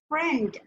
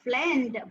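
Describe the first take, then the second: First: The word begins with an fr sound. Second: The word begins with an fl sound. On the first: The speaker calls it right. "but friend" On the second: The speaker calls it wrong. "not friend"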